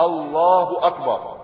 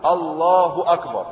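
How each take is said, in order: No difference in how they are said.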